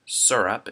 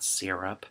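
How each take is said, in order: First: "syrup" as SUR-up; own "syrup". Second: "syrup" as SEER-up; rejected "syrup". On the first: Reading the word list, "syrup" as SUR-up. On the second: Dismissing the other way, "syrup" as SEER-up. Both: Shown as a demonstration. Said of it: "it's not syrup".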